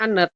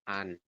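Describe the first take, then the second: First: Both final consonants are sounded, giving two syllables. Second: Only one final consonant is sounded, giving one syllable. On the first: The speaker calls it wrong. "Harusnya anet" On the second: The speaker calls it right. "tapi dibacanya hanya an"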